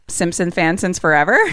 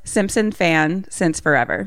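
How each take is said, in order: First: It is said at normal speed. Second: It is said slowly.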